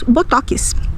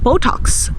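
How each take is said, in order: First: It is said with a Brazilian Portuguese pronunciation. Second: It is said with an English pronunciation. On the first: "nós diremos" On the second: "Nós não vamos dizer"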